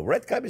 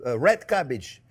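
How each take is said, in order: First: "Red cabbage?" rising high and unsure at the end; "Red cabbage?" with a doubtful upward lilt; unsure question. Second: Said in the usual way. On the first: Real, not acted. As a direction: ask "Red cabbage?" as if checking the name. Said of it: "Is that what you call it?". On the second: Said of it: "what do you call it?".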